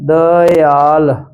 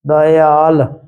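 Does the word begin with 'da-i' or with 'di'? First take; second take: da-i; da-i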